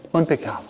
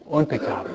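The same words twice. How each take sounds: The two takes are said the same way.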